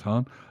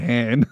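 First: It is said with a non-Australian accent. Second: It is said with an Australian accent.

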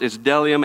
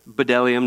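First: The word begins without any B sound. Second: The word begins with an audible B sound. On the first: The speaker calls it right. "you don't pronounce the B" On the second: The speaker calls it wrong.

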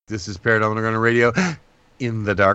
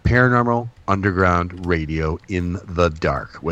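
First: It is said at normal speed. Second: It is said slowly.

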